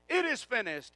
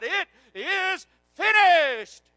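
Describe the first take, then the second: First: Said in the usual way. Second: Slow, high, full-voiced shout; preacher re-enacting a triumphant cry, word by word; loud cry. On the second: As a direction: shout it out slowly, stretching "finished". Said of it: "He cried".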